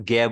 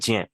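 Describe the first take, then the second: First: The syllable begins with a g sound. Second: The syllable begins with a j sound. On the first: This is how many people say it today. "कई लोग इसको ज्ञ बोल देते हैं" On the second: This is the original traditional way of saying it. "रियल है ज्ञ"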